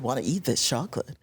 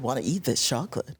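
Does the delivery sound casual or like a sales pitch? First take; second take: casual; casual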